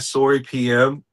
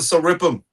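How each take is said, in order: First: The final letters are spoken separately. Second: The whole name runs together as one word. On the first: The speaker calls it right. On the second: The speaker calls it wrong.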